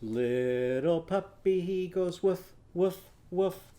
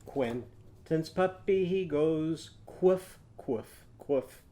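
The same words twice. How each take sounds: First: Slow singing with woof sounds; sung puppy verse. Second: Quoof sung slowly with a qu start; qu sound on woof. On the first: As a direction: sing the puppy line slowly. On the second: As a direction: sing quoof, starting each with qu. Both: Shown as a demonstration. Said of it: "how would it sound?".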